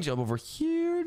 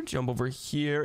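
First: High, eager call; excited call. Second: Said in the usual way. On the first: Acted. Racing through parkour, calling out.

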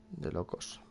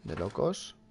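First: Whisper. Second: Said in the usual way. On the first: Real, not acted. Repeats phrase, second whispered.

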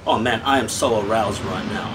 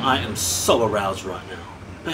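First: Said in the usual way. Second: Slower, lower mock-seductive repeat; mock sultry. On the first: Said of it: "repeats the line lower". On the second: Reviewer hamming up his delight in the whisky, mock sultry. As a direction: drag it out like a joke come-on. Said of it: "repeated line said lower".

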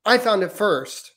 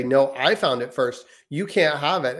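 First: Put-on high, slow toddler insisting. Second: Lightly voiced sister snapping back; a hint of a bossy big sister; older sister retort. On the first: Son, two and a half, claiming a toy in a high, slow toddler voice. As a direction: say it like a two-year-old, much higher and drawn out. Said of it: "my son, who's two and a half, will say". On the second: Daughter claiming the toy back from her brother, lightly voiced. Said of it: "And then my daughter will say".

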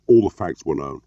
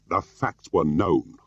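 First: Said in the usual way. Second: Slow, hard-set repeat; deliberate, pointed insistence; glaring repetition. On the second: A narrator's reading. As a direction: repeat it slowly, with a glare in the voice. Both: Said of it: "Jim repeated, glaring".

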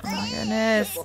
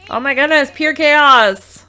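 First: Said in the usual way. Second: Loud, high cry of overwhelm; loud exasperated exclamation at the chaos; exasperated outburst. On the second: Real, not acted. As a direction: throw up your hands at the chaos, loudly.

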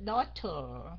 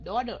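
First: "Daughter" low, with a crisp British T. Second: "daughter" with a D in the middle; American D for T. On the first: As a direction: release the T of "Daughter", British style. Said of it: "Đọc theo giọng Anh". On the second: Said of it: "Người Mỹ họ ưa đọc chữ T thành chữ D". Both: Shown as a demonstration.

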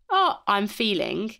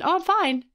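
First: Slow, thoughtful start of a real answer; considered reply. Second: Much higher, breezy automatic brush-off; non-thinking reply. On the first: Shown as a demonstration. Pausing before answering how are you, slow and considered. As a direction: take your time, weigh the words. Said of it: "Actually pausing before you respond". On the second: Retold or imitated. Answering someone's how are you on autopilot, breezy. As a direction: chirp it out without a thought. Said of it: "the sort of non-thinking response".

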